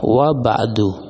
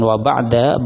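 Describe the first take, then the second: First: The last word ends with a 'u' vowel. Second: The last word ends with an 'a' vowel. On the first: The speaker calls it right. "dibacanya dengan dhammah" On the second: The speaker calls it wrong. "bukan wa ba'da"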